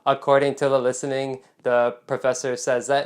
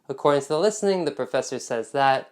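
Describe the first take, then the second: First: It is said in a flat, robotic voice. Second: It is said in a natural, friendly voice.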